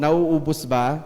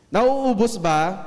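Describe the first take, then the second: First: Said in the usual way. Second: Nauubos ba? drawn out slowly, higher and louder, with a rising end; emphatic slow question. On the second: Shown as a demonstration. Preacher presses the congregation with a slow, emphatic question. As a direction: stretch out Nauubos ba? to press the point. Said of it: "No, hindi".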